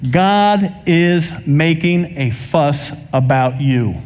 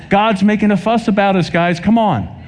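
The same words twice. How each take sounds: First: Very slow, deliberate preaching line; measured proclamation, dropping on "you"; slow emphasis. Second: High-pitched, urging preacher; insistent plea at a lifted pitch; urgent exhortation. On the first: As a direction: stretch out each word to drive it home. Preacher drives home key line. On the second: Urges an unresponsive congregation. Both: Real, not acted.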